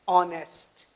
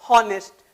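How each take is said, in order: First: The word starts directly with a vowel sound. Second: The word starts with an audible h sound. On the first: The speaker calls it right. "ये जो H है ये म्यूट हो गया" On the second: The speaker calls it wrong. "कभी इसको ... हॉनेस्ट नहीं पढ़ेंगे"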